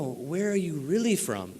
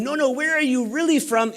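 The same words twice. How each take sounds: First: A hushed, pointed mock question from the news anchor; lightly voiced anchor, quietly insisting; quiet retold question. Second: Pitched higher, pressing harder, a touch mocking; the anchor pushing a third time, lightly imitated; higher insistent question. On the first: News anchor pressing him on his origins, hushed and pointed. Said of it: "And she goes". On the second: News anchor asking a third time, higher and insistent. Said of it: "she asked me a third time".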